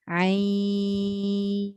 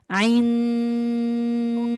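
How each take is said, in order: First: The vowel is held long without nasal sound. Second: The nasal n sound is held long. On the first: The speaker calls it right. "dia mana ada nun sekali" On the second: The speaker calls it wrong. "sebut dengan nun sekali tapi nak enam harakat panjang"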